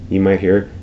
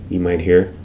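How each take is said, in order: Both takes have the same delivery.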